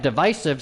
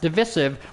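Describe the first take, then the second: First: The middle syllable sounds like 'vice'. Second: The middle syllable sounds like 'viss'. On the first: This is the older, established pronunciation. The speaker calls it right. "divisive is spelled and pronounced divisive" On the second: This is the newer pronunciation copied from a public figure. The speaker calls it wrong. "It would have two S's if it was divisive"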